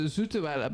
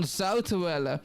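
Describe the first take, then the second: First: The first vowel sounds like 'oo'. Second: The first vowel sounds like 'ow'. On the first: The speaker calls it wrong. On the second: The speaker calls it right.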